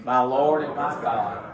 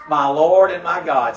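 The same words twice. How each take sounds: First: Slow, reverent, said together; slow reverent repeat. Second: Louder awed exclamation; Thomas exclaiming. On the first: Shown as a demonstration. Pastor leading congregation in slow reverent response. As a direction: lead it slowly as a confession. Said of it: "Say it with me". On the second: Retold or imitated. Thomas seeing the scars, awed louder exclamation. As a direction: blurt it out in amazement. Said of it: "Thomas sees the scars and he says".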